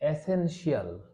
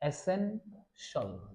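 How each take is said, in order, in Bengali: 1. শেষটা দুই অক্ষরের, 'shee-al' এর মতো। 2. শেষটা একটাই হালকা অক্ষর, 'shul' এর মতো। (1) "এভাবে আমরা উচ্চারণ করি। সবার শেষে আমরা হচ্ছে শিয়াল লাগানোর চেষ্টা করি।" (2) "শল, শিয়াল না, উচ্চারণ হবে কি শল।"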